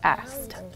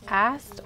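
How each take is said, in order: First: The word ends with a t sound. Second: The word ends with a d sound. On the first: The speaker calls it right. "ed makes a d or t" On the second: The speaker calls it wrong. "ed makes a d or t"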